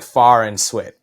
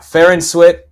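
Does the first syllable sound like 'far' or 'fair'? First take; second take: far; fair. First: The first syllable has the vowel of 'far'. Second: The first syllable has the vowel of 'fair'. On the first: The speaker calls it wrong. "it looks like Far and Swit" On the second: The speaker calls it right. "so yeah, Fair and Swit"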